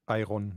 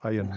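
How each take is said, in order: First: The R sound is clearly pronounced. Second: The R sound is nearly silent. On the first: The speaker calls it wrong. "nicht Iron" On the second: The speaker calls it right. "das R ist mehr oder weniger stumm"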